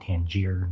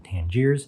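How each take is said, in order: First: The name ends without an s sound. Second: The name ends with an s sound. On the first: The speaker calls it right. "It is the Tangier" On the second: The speaker calls it wrong. "not the Tangiers"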